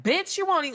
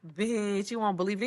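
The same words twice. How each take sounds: First: High-pitched, animated gossip; excited delivery. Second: Understated, matter-of-fact delivery; low-key remark. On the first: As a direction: exclaim it high, like juicy news. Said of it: "it's different". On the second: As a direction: say it casually in a normal register. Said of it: "it's how you say it". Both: Shown as a demonstration.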